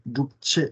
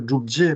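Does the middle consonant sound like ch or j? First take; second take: ch; j. First: The middle consonant sounds like ch. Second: The middle consonant sounds like j. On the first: The speaker calls it wrong. "pas Drupche" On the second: The speaker calls it right. "c'est Drupje avec un J"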